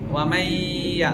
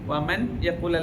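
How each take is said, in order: First: The n merges into a nasalized doubled y. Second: The n is pronounced separately before the y. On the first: The speaker calls it right. "മണിച്ച് കൂട്ടിച്ചേർത്ത് ഉച്ചരിക്കണം" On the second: The speaker calls it wrong. "വമൻ യഖുൽ അല്ല"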